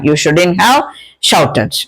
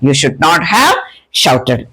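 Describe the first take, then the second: First: "Should not" is contracted into one word. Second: "Should not" is said as two full words.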